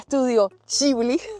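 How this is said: The name is said the Japanese way. The speaker calls it right. "La forma correcta de decirlo es Ghibli en japonés"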